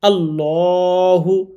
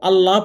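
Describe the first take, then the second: First: The L sound is heavy and thick. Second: The L sound is light and thin. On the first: The speaker calls it right. "এই লামটা মোটা করে পড়তে হবে" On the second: The speaker calls it wrong. "পড়া যাবে না"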